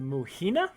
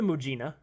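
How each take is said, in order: First: The middle consonant is a breathy H sound. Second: The middle consonant is a voiced J sound. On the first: "That's kind of the Spanish way of pronouncing it" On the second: "Mujina sounds a little more oriental"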